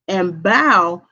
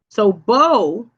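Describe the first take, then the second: First: The vowel is not a long O sound. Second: The vowel is a long O sound. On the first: Bending forward as a greeting or curtsy. "bow is when you curtsy" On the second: The weapon used to shoot arrows. "bow, of course, is the bow and arrow"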